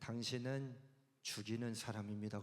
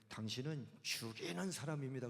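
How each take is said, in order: First: It is said in a flat, cold way. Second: It is said in a lively, enthusiastic way. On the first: The speaker calls it wrong. "그러면 썰렁해요" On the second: The speaker calls it right. "그러면 의미가 달라져요"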